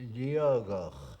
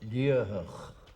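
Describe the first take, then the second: First: The middle consonant is a G sound. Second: The middle consonant is a T sound. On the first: This is how old native local speakers say it. "old native Gaelic speakers from Torridon sometimes pronounce it ... where the T in the middle should be a G" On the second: This is the pronunciation matching the written form. "As it is written, it uh, is pronounced"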